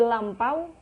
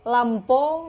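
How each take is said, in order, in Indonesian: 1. Kata ini berakhir dengan diftong au. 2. Kata ini berakhir dengan vokal o biasa.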